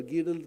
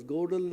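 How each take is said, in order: First: "Gödel" with an ee vowel, GEE-del; alternative pronunciation. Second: "Gödel" with a long o, GOH-del; first pronunciation option. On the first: Speaker unsure of the logician's name offers an alternative, "Gödel" as GEE-del. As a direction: say "Gödel" as GEE-dl, not GOH-dl. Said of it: "pronunciation I'm not very sure". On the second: Speaker offers one way to pronounce the logician's name, "Gödel" as GOH-del. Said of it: "is pronounced as Gödel or Gödel". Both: Shown as a demonstration.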